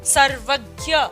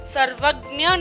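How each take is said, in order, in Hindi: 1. यह शब्द हिंदी के ढंग से उच्चरित होता है। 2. यह शब्द संस्कृत के ढंग से उच्चरित होता है। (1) "हिंदी में इसको पढ़ रहे हैं" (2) "सर्वज्ञ नहीं पढ़ेंगे"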